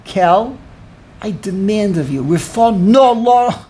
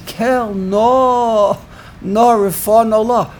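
First: Demanding. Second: Higher, drawn-out mock plea; pleading inflection. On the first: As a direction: act out giving orders, punching the final words. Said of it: "Moshe is giving orders". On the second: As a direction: act out an imploring prayer with stretched words. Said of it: "It's a very different inflection". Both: Shown as a demonstration.

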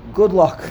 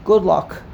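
The two takes are said the same way.

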